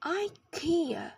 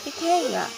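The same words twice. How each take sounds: First: Ikea as eye-KEE-uh, stress on the second syllable; American ikea. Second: Ikea as ih-KAY-uh, said slowly and higher; British ikea. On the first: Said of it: "In the U S, it is pronounced". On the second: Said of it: "In the U K, it's". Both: Shown as a demonstration.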